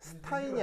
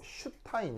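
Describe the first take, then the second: First: The word begins with a plain s sound. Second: The word begins with an sh sound. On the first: The speaker calls it wrong. "스타인이 아니고" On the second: The speaker calls it right. "S를 쉬 발음을 내거든요"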